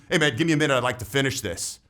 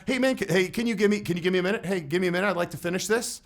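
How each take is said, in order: First: Steady and firm, falling at the end; confident, unhurried request that expects no argument; strong tonality. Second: Higher, hesitant and stammering, asking permission; pleading, tentative request that restarts itself; weak tonality. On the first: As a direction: state it calmly, like it's already decided. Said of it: "Do you hear the difference?". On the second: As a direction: trail off unsure, like you need their approval. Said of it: "if my tonality would have been". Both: Shown as a demonstration.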